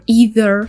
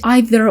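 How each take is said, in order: First: It is said with an American accent. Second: It is said with a British accent.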